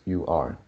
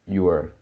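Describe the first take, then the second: First: The two words are said separately. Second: The two words are joined into one. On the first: The speaker calls it wrong. "you pronounce you are" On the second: The speaker calls it right. "we should pronounce it together"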